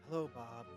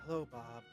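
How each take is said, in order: The two takes are said the same way.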